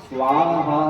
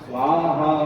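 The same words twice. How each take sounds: Both takes have the same delivery.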